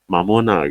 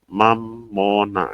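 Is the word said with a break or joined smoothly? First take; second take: joined; break. First: The syllables are joined smoothly without a break. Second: There is a slight break after the first syllable. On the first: This is the Arabic form of the word. "Beda dengan Mamona gitu" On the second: This is the Latin form of the word. "jadi di ada seperti ada koma, kayak ada im nggak bisa nggak bisa digabung"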